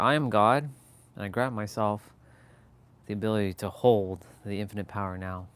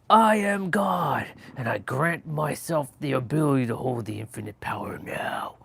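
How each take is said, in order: First: It is said calmly, in a relaxed, flowing way. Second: It is said forcefully, with strong emotional intensity. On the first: The speaker trusts it is already done. The speaker calls it right. "just saying in a relaxed state" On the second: The speaker is straining to make it happen. The speaker calls it wrong. "instead of saying"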